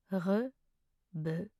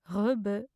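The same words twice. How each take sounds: First: Slow, two syllables apart. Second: Said in the usual way. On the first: Shown as a demonstration. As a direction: pause between the syllables. Pronunciation guide, broken-down take.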